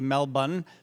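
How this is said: It is said with the Australian pronunciation. The speaker calls it right. "the Australians uh, say Melbourne"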